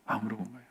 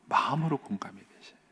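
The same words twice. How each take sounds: First: 마음으로 공감이 repeated almost in a whisper, much softer; whispered echo. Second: Hushed, heartfelt appeal; soft emphasis. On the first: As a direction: let 마음으로 fall away to a breath. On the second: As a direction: press the word 마음으로 gently and quietly. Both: Shown as a demonstration.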